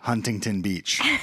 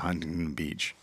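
First: The words are articulated clearly and distinctly. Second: The words are slurred and mumbled together. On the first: The speaker calls it right. "without the mush mouth" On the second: The speaker calls it wrong. "the mush mouth"

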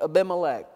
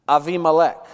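First: The second consonant is a B sound. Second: The second consonant is a V sound. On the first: "that's how we say it in Texas" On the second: "That's not how a Hebrew would pronounce it"

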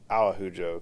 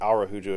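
First: The middle consonant is sounded like an H. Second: The middle consonant is sounded as an R. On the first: The speaker calls it right. "It should be Araujo, because the R makes the H" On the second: The speaker calls it wrong. "It shouldn't be Araujo"

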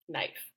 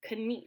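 First: The K is silent and the vowel is 'eye'. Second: The K is sounded and the vowel is 'ee'. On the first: This is the present-day pronunciation. "we're cutting out that K and we're making that two E sound into like an I" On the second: This is the older historical pronunciation. "in Middle English, that would have been correct. Knief, actually"

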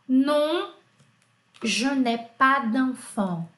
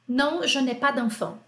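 First: It is said slowly. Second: It is said fast.

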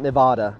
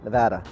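First: It is pronounced the way outsiders say it. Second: It is pronounced the way locals say it. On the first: The speaker is not from the area. The speaker calls it wrong. "not Nevada ... we know you're not from here" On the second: The speaker is from the area. The speaker calls it right. "Just Nevada, easier"

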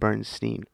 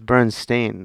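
First: The last syllable sounds like 'stine'. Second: The last syllable sounds like 'stain'. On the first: The speaker calls it wrong. "not Bernstein" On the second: The speaker calls it right. "it's Bernstein"

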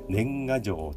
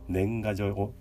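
First: The pitch rises then drops inside the word. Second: The pitch stays level without dropping. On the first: "年賀状という言い方と" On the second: "平らな言い方"

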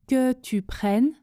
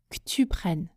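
First: The vowel in que is pronounced fully. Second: The vowel in que is dropped entirely. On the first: "Je ne prononce pas que tu prennes quand je parle vite" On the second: "mais je dis que tu prennes"

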